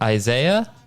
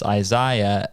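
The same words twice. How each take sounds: First: It is said in an American accent. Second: It is said in a British accent.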